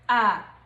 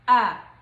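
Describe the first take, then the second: First: It is said in the neutral tone. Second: It is said in the neutral tone.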